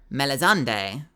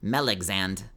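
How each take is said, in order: First: The name is said as 'mel-iz-ande'. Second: The name is said as 'mel-ex-and'. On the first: "or Melizande" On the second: "Usually T T S will be like Melexand"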